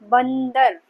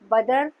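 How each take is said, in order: First: A nasal sound comes before the 'd'. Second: There is no nasal sound before the 'd'. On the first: The speaker calls it right. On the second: The speaker calls it wrong.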